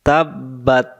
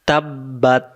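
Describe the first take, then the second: No difference in how they are said.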